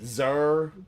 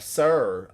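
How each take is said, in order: First: The name begins with a Z sound. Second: The name begins with an S sound. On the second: "X is pronounced as S in the English language"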